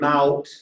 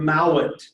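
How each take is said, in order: First: It is one syllable with a diphthong. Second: It is two syllables with an added vowel. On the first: This is the older form of the word. "what was originally mout" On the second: This is the later form of the word. "went to mowit"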